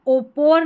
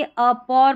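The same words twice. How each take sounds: First: ओपोर opening on a long "o"; wrong pronunciation. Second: अपोर opening on a short "uh"; correct pronunciation. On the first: Teacher showing what not to read, mispronounced ओपोर with initial "o". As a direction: say ओपोर with the first letter as "oh". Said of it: "ओपोर नहीं पढ़ेंगे". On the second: Teacher modelling the right reading, अपोर with initial "uh". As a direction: say अपोर with a schwa for the written O. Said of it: "अपोर पढ़ा". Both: Shown as a demonstration.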